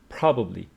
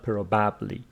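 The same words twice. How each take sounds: First: The stress is on the first syllable. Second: The stress is on a later syllable. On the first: The speaker calls it right. "It is on the first syllable" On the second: The speaker calls it wrong. "not probably"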